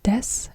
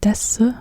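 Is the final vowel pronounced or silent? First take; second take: silent; pronounced. First: It ends in a bare s sound. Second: It ends with an audible u vowel. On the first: The speaker calls it right. "you always say des" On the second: The speaker calls it wrong. "and not des"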